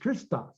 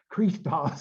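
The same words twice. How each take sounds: First: The vowel after the r is short. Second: The vowel after the r is long. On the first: The speaker calls it right. "it's Christos because it's a, a short e, short iota" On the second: The speaker calls it wrong. "We don't say Christos"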